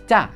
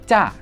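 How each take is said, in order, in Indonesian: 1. Vokalnya diucapkan pendek. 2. Vokalnya diucapkan pendek.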